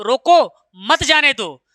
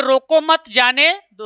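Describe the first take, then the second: First: Slow, रोको alone, pause, then मत जाने दो; comma after रोको. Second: Slow, रोको मत grouped together, then जाने दो; comma after मत. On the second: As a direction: keep मत tied to रोको. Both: Shown as a demonstration. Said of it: "कामा का फर्क होता है".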